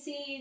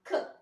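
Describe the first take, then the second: First: The letter is said as its alphabet name. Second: The letter is said as its short sound. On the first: "వాటిల్ని letter names అంటాము" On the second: "the sounds what we are pronouncing"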